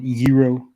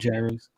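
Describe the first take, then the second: First: The word has a Greek-style pronunciation. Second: The word has an ordinary English pronunciation.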